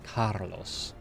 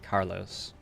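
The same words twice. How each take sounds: First: The name is said in a Spanish accent. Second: The name is said in an American accent. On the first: "if I were trying to speak Spanish, I would try to say like Carlos" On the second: "In America, I would say Carlos"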